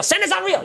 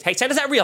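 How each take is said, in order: First: "Santa's not real" sung out much higher, teasing; high mock taunt. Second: Mock taunt. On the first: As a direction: pitch it way up like a playground taunt. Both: Taunting the mother's kids.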